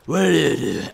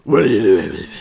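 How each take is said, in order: First: Said in the usual way. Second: Low, loud, gritty caped hero growl; Batman voice. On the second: Pretend. Asked for a Batman voice, growls at the bat. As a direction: growl it like a brooding vigilante. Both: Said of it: "Can you do the Batman voice?".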